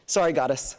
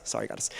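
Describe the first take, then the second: First: Whispered apology. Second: Said in the usual way. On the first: Real, not acted. Apologizing to late teacher.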